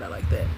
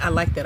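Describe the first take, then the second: First: Much lower, trailing "I like that"; low, fading repeat. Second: Said in the usual way. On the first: Shown as a demonstration. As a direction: let it sink, savouring it.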